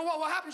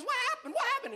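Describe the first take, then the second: First: Higher, innocent-sounding question; mildly raised voice of the caught son; teenage son. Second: Very high mimicking mom voice; high-pitched, repeated mock question; mocking mother. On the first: Acted. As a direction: ask like a kid playing innocent. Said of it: "And I go". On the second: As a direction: throw his question back as the mother. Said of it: "She goes".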